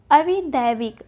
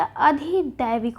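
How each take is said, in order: First: अविदैविक with v in the second syllable; the mistaken vi in अविदैविक; wrong form अविदैविक. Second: अधिदैविक with dh in the second syllable; dhi, not vi, in अधिदैविक; correct form अधिदैविक. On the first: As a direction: say अविदैविक as a-vi-daivik. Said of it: "अविदैविक नहीं होता". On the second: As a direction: slowly say अधिदैविक as a-dhi-daivik. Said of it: "अधिदैविक होता है". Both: Shown as a demonstration.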